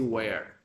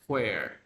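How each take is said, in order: First: It begins with a plain w sound. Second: It begins with a soft puff of breath. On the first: This is how most people say it now. "But nowadays, it, people just say where" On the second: This is the older way of saying it. "Very gentle, the air comes out"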